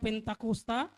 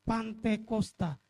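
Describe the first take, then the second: First: The first syllable is said as 'pen'. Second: The first syllable is said as 'pan'. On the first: The speaker calls it right. "Tetapi yang benar adalah Penta" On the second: The speaker calls it wrong. "ada beberapa salah kaprah"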